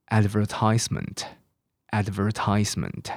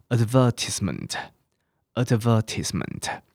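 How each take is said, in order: First: Advertisement stressed on AD with a long TISE, ad-ver-TISE-ment; slow American advertisement; American pronunciation. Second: Advertisement stressed on VER, ad-VER-tis-ment; slow British advertisement; British pronunciation. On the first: Teacher reviews American words for students. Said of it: "这个是美式英文哦". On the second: Teacher reviews British words for students. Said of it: "英式的发音". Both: Shown as a demonstration.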